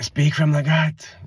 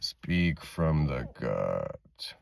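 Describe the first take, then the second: First: The voice is high and tense. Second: The voice is low and deep. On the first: The speaker calls it wrong. "Not here with the heightened energy" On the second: The speaker calls it right. "Like a man. Get low"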